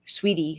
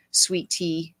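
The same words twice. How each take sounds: First: "sweetie" run together, stress on "sweet"; corrected word. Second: "sweet tea" said as two words, with a clear t before "tea"; "sweet tea" with a separate stressed "tea"; slip of the tongue. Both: Real, not acted.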